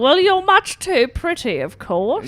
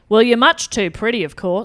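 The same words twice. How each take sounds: First: The accent sounds more English. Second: The accent sounds less English. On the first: The speaker calls it right. "sounded a bit more English then" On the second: The speaker calls it wrong. "She would have said"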